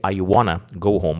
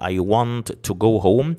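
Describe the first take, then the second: First: Want and to blend into one word, wanna. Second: Want and to are said as separate words. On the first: "you can say, ... Wanna is like a combination of want and to together" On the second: "instead of saying"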